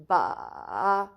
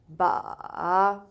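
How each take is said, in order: First: It is said with the third tone. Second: The same.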